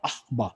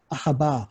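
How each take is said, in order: First: The word has two syllables, no middle vowel. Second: A short vowel is added, giving three syllables. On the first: This follows the original syllable pattern. "원래는 ... 묵음 쉐바가 돼서 아, 아바라고 발음해야 되는데" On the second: This makes the word easier to say. "그래서 아하 아하바"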